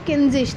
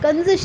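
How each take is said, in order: First: The first vowel sounds like 'i' in 'pin'. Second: The first vowel sounds like 'a' in 'about'. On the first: The speaker calls it right. "वो किंजिश था" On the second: The speaker calls it wrong. "कंजिश नहीं था"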